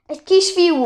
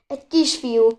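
First: Excited cry. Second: Said in the usual way. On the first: Acted. Excited repeat of the news.

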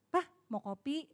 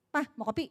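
First: Affectionate offer. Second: Short, businesslike question; perfunctory offer. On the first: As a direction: coax a husband lovingly. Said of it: "kita sayangin". (menawarkan dengan sayang) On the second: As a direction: ask briskly, without affection. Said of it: "hasilnya beda dengan". (bertanya datar tanpa kemesraan) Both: Shown as a demonstration.

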